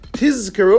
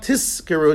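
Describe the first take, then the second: First: The middle consonant is a voiced z sound. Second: The middle consonant is a voiceless s sound. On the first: The speaker calls it right. "You have to say tizkeru" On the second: The speaker calls it wrong. "and not tiskeru"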